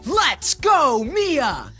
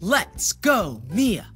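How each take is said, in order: First: It is shouted as loud as possible. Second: It is said a little louder.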